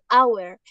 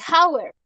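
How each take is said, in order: First: The word starts directly with a vowel sound. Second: The word starts with a breathy h sound. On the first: The speaker calls it right. "se dice hour. Y el sonido suena como el sonido de una vocal" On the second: The speaker calls it wrong. "no se dice hour"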